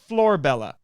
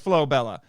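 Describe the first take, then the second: First: The first syllable is said with an r sound. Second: The first syllable is said without an r sound. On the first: The speaker calls it wrong. "not Florbella" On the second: The speaker calls it right. "it is Flobella"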